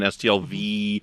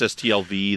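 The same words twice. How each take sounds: First: The final V is drawn out somewhat longer. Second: The final V is drawn out a little. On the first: It stands for the second year. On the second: It stands for the first year.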